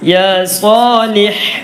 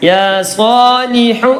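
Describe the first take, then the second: First: The last word ends on a silent final consonant. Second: The last word ends with a short u vowel. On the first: The reciter stops after this word. "ഹ എന്ന് സുക്കൂൻ ചെയ്തു" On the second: The reciter continues into the next word. "നിർത്തുന്നില്ല എങ്കിൽ ഹ എന്ന് ലൊമ്മാണ്"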